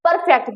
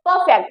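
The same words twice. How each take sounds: First: The r sound is clearly pronounced. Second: The r sound is silent. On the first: The speaker calls it wrong. "This is not परफेक्ट" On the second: The speaker calls it right. "This is परफेक्ट"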